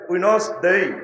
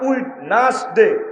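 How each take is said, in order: First: It is said as two syllables, wenz-day. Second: It is spelled out as three full syllables. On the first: The speaker calls it right. "এটা হলো সঠিক উচ্চারণ।" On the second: The speaker calls it wrong. "আগে হচ্ছে ছোটবেলা উইড নাস ডে"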